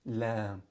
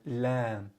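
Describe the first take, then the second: The two takes are said the same way.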